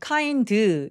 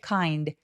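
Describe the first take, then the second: First: An extra 'eu' vowel follows the final D. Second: The final D has no vowel after it. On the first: The speaker calls it wrong. "모음을 으 소리를 집어넣을 때가" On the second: The speaker calls it right. "연결하지 말고"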